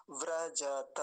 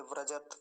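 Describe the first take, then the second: First: व्रजत as vra-ja-ta, open ending; full final ta. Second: व्रजत as vra-jat, stopped on t; no vowel after the t in व्रजत; with halant. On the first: Teacher giving the right form to students, full final ta. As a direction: give ja and ta in व्रजत their vowels. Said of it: "तो क्या बोलेंगे". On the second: Teacher showing when that form would apply, with halant. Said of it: "जब तकार के नीचे हलंत होता". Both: Shown as a demonstration.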